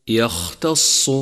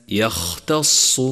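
No difference in how they are said.

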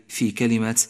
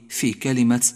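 The two takes are said the same way.

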